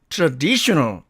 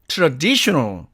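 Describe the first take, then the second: Both takes have the same delivery.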